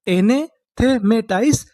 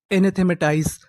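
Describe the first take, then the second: First: Slow model word. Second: Said in the usual way. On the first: Shown as a demonstration. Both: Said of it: "तो उसे हम लोग क्या बोलेंगे?".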